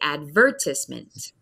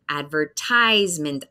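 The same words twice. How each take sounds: First: The stress falls before the 'tise' syllable. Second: The stress falls on the long 'tise' syllable. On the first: This is the British pronunciation. "They say advertisement. So we have a different focus in the syllables" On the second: This is the American pronunciation. "we hear a long I sound. That's the big syllable in the word"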